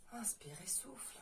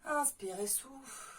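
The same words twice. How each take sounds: First: Soft whispered breathing cue; whispering. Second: Said in the usual way. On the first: Shown as a demonstration. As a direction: whisper it gently to the class. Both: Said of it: "coach cue, then whispered repeat".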